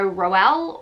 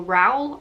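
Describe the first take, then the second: First: "Rowell" said in two syllables, ending like "well"; alternative pronunciation. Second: "Rowell" run together, rhyming with "towel"; alternative pronunciation. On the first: Reviewer unsure of author's name, "Rowell" as two syllables. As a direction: say "Rowell" with a distinct "-ell" ending. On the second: Reviewer offering another guess, "Rowell" with reduced ending. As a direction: say "Rowell" with the "-ell" reduced to a plain l. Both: Shown as a demonstration. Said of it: "not sure how you pronounce it".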